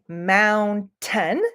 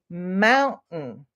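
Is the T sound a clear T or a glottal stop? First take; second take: clear T; glottal stop. First: The T is released as a clear T sound. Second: The T is replaced by a glottal stop. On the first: The speaker calls it wrong. "We don't say mountain" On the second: The speaker calls it right. "if you want to sound a little more natural, you can say mountain"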